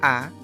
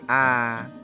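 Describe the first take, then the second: First: The vowel is held briefly, one beat. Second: The vowel is held longer, two beats. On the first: "Kalau satu harokat itu a" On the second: "kalau dua harokat berarti ya a, lebih panjang"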